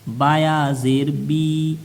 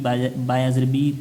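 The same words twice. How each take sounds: First: The final vowel is stretched out long. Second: The final vowel is cut short. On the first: The speaker calls it right. "थोड़ा सा इसको खींच के पढ़ेंगे" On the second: The speaker calls it wrong. "ऐसे नहीं पढ़ेंगे"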